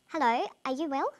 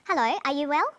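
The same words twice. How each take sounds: First: "Hello, are you well?" less forceful, rising on "well"; uncertainty in intonation. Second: "Hello, are you well?" louder, with a firm rise on "well"; certainty in intonation. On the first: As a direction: let "well" lift as if unsure. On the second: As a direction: lift "well" confidently at the end. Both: Shown as a demonstration. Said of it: "different levels of certainty or uncertainty".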